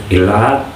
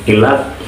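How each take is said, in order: Both takes have the same delivery.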